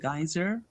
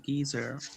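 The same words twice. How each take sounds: First: It is said in an American accent. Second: It is said in a British accent. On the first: "I call it a geyser in the U S English" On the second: "In the U K, they might say geyser"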